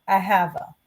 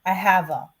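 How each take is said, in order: The two takes are said the same way.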